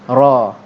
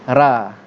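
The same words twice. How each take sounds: First: The r sound is heavy and full. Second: The r sound is light and thin. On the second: "Kalau nipis"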